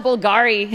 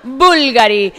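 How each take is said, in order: First: "Bulgari" with stress on the middle syllable, bul-GA-ri; mistaken stress. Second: "Bulgari" punched loud on BUL, as BUL-ga-ri; stress on first syllable. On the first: Confessing how her people call it, "Bulgari" stressed on GA. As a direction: say "Bulgari" English-style, leaning on GA. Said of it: "we call it Bulgari". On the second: Correcting herself after the bad version, "Bulgari" stressed on BUL. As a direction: hit the first syllable of "Bulgari" hard, amused. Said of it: "doesn't have a second to last stress syllable". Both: Shown as a demonstration.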